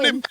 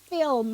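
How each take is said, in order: First: The L sound comes before the vowel. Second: The L sound comes after the vowel. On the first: The speaker calls it wrong. "You said you said flim. It's not" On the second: The speaker calls it right. "It's film"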